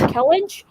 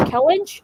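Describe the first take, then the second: First: The name is said in two syllables. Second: The same.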